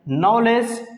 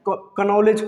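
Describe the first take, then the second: First: The word starts with n, no k. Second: The word starts with a k sound. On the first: The speaker calls it right. "क्योंकि के silent होता है" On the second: The speaker calls it wrong. "जो कि गलत sound है"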